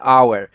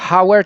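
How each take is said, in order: First: The word begins directly with the vowel. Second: The word begins with an audible h sound. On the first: The speaker calls it right. "tylko czytamy" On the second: The speaker calls it wrong. "nie czytamy"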